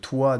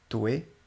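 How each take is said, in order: First: The end of the word stays level. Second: The end of the word rises.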